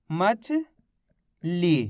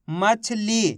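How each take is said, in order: First: मछली as rising मछ, long pause, lower ली; syllable split. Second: मछली in one go with a long ली; sounding out. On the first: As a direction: read मछली very slowly in two separated parts. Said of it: "तो मिलके बन गया". (मछली को मछ और ली में तोड़कर, रुककर) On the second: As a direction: sound out मछली with its last vowel held. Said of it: "ली बोलेंगे". (मछली, आख़िरी ली को खींचकर) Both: Shown as a demonstration.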